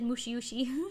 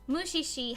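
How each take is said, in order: First: The word has an extra 'u' syllable: four syllables. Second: The word has no extra syllable: three syllables. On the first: The speaker calls it wrong. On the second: The speaker calls it right.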